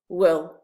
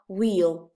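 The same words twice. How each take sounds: First: The vowel is kept very short. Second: The vowel is drawn out long. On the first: The speaker calls it right. "the vowel is very short" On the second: The speaker calls it wrong. "It's not will"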